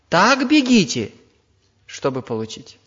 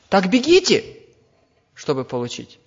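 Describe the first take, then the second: First: The word 'так' is stressed. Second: The word 'так' is not stressed. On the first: The speaker calls it right. "Второй вариант. ... правильный второй. Ударение сделается на слове «так»" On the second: The speaker calls it wrong. "Я прочитаю его по-разному"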